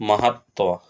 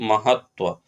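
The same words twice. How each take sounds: Both takes have the same delivery.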